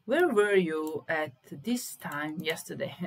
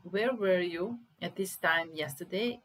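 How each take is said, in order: First: Slow dictation. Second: Said in the usual way. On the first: Shown as a demonstration. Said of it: "slow loud dictation". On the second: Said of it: "repeats normally".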